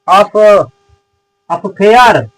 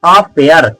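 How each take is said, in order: First: It is split into two parts, off and fair. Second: It is said as one smooth word, uh-fair. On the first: The speaker calls it wrong. "नहीं, ऑफ फेयर नहीं लिखा गया है" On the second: The speaker calls it right. "इसको पढ़ते हैं अफेयर"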